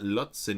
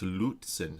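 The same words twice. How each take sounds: First: The name is said in a nonlocal way. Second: The name is said in the local way. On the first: The speaker calls it wrong. "this is not Lutzen" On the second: The speaker calls it right. "it's Lutzen"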